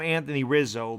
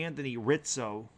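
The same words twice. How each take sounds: First: Rizzo is said with an Americanized z sound. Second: Rizzo is said with an Italian ts sound. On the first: This is the common Americanized name. The speaker calls it wrong. "they call him Anthony Rizzo, but that's not the Italian way" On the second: This is the original Italian name. The speaker calls it right. "It should be Anthony Rizzo"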